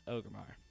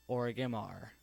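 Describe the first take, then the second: First: ORGRIMMAR in three syllables, "OH-gur-mar"; corrected pronunciation. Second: ORGRIMMAR said with an extra vowel, "or-uh-gim-ar"; old mispronunciation. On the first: Owning up to a mistake, Orgrimmar said the corrected way. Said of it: "Now I know my mistake". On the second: Viewer hears how the speaker used to call it, mispronounced. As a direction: say Orgrimmar as "Origamar". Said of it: "I used to call it". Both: Shown as a demonstration.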